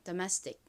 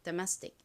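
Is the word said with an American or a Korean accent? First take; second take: American; American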